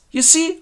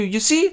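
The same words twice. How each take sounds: First: Even higher, pressing You see; insistent repeat. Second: High, rising question; fisherman asks. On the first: Edgar presses his blind father again, higher. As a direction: push the question again, squeakier. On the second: Edgar asks his blind father if he saw, high. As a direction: ask it lightly. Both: Acted.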